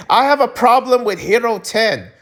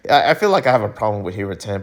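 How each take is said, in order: First: Bold declaration. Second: Rushed, low, under his breath; mumbled admission. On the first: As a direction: proclaim "have" like a confession to the world. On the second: Vlogger mumbling a confession to viewers, rushed and low. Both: Pretend. Admits problem quietly then loudly.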